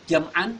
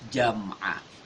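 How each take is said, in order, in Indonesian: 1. Kata itu berakhir dengan bunyi n. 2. Kata itu berakhir dengan vokal a yang dipanjangkan. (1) "Jam'an kita baca jam'a" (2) "kita baca jam'a"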